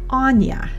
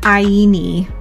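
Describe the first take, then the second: First: The name is said as 'Anya'. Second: The name is said as 'Aini'. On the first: The speaker calls it right. "It's Anya" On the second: The speaker calls it wrong. "it's not Aini"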